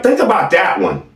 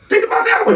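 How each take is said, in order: First: Said in the usual way. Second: "Think about that one" said again much higher, in a teasing squeak; mocking high repeat. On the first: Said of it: "Think about that one, y'all". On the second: Shown as a demonstration.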